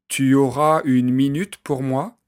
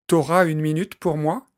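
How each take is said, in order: First: The pronoun tu is said in full. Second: The pronoun is shortened to t' before auras. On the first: This is the standard form. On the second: This is casual everyday speech.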